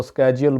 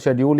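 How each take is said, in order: First: स्केड्यूल starting with a hard "sk"; American-style स्केड्यूल, k after the s; American pronunciation. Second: शेड्यूल starting with "sh", shed-yool; correct pronunciation. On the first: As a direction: say स्केड्यूल as "SKE-jool". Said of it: "America में इसको स्केड्यूल बोला जाता है". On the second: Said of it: "जिसका सही तलफ़ुज़". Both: Shown as a demonstration.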